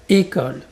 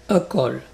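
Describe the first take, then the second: First: École with a clear, closed first é. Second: École mispronounced as "eu-col"; wrong eu onset. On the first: Teacher repeats for learners, closed é in école. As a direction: open école on a tight, bright-vowelled é. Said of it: "le son clair est fermé". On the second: Teacher shows the mistake to avoid, école begun with eu. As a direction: begin école with eu in place of é. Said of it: "et pas". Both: Shown as a demonstration.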